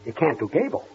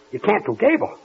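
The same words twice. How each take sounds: First: Low, soft incredulous question; stunned disbelief. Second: Alarmed disbelief. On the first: Boss to the mimic who can't do Gable, quietly stunned. Stunned at the news, asks twice. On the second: Boss repeating it to the mimic, alarmed disbelief. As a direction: ask it with rising alarm. Asks again, more alarmed. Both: Acted.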